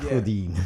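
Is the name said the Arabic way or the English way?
Arabic. The name is said with Arabic sounds. "In Arabic"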